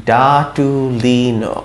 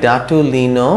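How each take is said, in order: First: ডাটুলিনো slowly, all syllables elongated; slow sounding-out. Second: Said in the usual way. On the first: Shown as a demonstration. Teacher repeating the word for learners, slow sounding-out. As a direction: draw out DAA-TUU-LEE-NOO. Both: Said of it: "ও দেই আমি কিরকম হয়".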